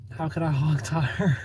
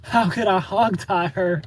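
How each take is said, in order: First: Said in the usual way. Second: Higher, slower, incredulous; baffled question. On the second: Real, not acted. Reading a viewer's comment aloud, slow and incredulous. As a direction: ask it as if it's absurd. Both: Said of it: "He even knows how to hog tie".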